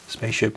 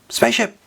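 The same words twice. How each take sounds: First: The word is said flatly, in passing. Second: The word is shouted with high excited energy. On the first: The speaker calls it wrong. "I didn't say it properly" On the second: The speaker calls it right. "I should say it"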